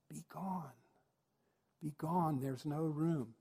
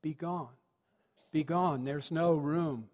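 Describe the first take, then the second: First: Hushed prompt from the wings; feed the line softly, under your breath; offstage prompter. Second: Put-on child actor repeating the prompted line at full voice; dutiful innkeeper. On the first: Acted. Prompter in the wings feeding the forgotten line, hushed. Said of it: "the prompter says from the side, from the wing". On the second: Boy innkeeper echoing the prompter in the play, dutiful. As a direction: repeat the fed line aloud, last words drawn out. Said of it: "So he goes".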